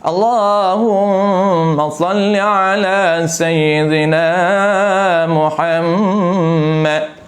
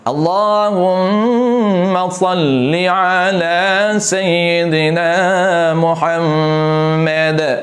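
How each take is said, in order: First: The last word ends in a k-like 'mak' sound. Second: The last word ends with a clear d sound. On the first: The speaker calls it wrong. "Mana dal tidak ada, mak saja" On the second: The speaker calls it right. "Dal tuan-puan jangan buang"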